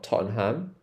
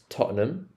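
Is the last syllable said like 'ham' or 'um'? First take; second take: ham; um. First: The last syllable is a full 'ham'. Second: The last syllable is a reduced 'um'. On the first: The speaker calls it wrong. "it's not Tottenham" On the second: The speaker calls it right. "we pronounce it as um"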